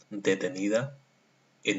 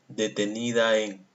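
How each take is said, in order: First: A short pause separates the two vowels. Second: The two vowels run together without a break. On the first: The speaker calls it right. "Lo lee pues pausado y separa bien detenida de en" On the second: The speaker calls it wrong. "No lo lee así"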